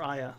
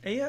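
First: "Aya" rhyming with the start of "sayonara"; EYE-a pronunciation. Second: "Aya" begun with the vowel of "day"; AY-ya pronunciation. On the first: Preferred way of saying the name, "Aya" as EYE-a. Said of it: "Like sayonara". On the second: Weighing up a character's name, "Aya" as AY-ya. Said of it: "I like Aya better". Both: Shown as a demonstration.

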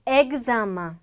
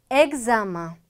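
Both takes have the same delivery.

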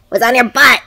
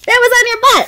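First: Said in the usual way. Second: High, amused and emphatic; playful excited. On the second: Real, not acted. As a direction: pitch it up playfully. Mom repeats the line, second higher.

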